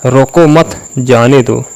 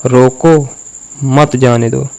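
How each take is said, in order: First: "रोको मत" as one phrase, break, then "जाने दो"; full stop after "मत", so it means let go; pause after मत. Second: "रोको" alone, break, then "मत जाने दो" together; pause after रोको. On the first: Coach showing how tone changes meaning, pause after "मत". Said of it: "मत पे मैंने फुल स्टॉप लगाया". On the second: Coach reversing the line's meaning, pause after "रोको". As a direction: put the full stop right after "रोको". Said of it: "अगर इसी बात को ऐसे बोलूँ". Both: Shown as a demonstration.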